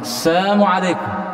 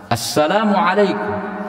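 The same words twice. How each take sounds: First: The greeting is said without the L sound. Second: The greeting is said with the L sound. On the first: It wishes the listener death. "dirubah atau dipelesetkan oleh orang Yahudi" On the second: It wishes the listener peace. "yang kita maksudkan adalah kebaikan, kesejahteraan atasmu"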